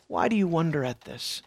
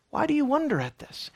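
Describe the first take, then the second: First: Softer, lower, puzzled reading of the question; quiet musing reading. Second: Higher pitched, a touch incredulous; higher questioning reading. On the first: Preacher tries out Peter's question quietly for the congregation. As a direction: ask it softly, almost to yourself. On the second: Preacher tries another reading of Peter's question, higher. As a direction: lift the question up, as if baffled by them. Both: Shown as a demonstration. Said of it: "Imagine the scene".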